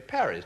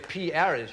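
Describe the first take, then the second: First: The first letter is blended into one word. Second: The first letter is spoken apart from the rest. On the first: The speaker calls it right. "You say" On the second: The speaker calls it wrong. "you don't say"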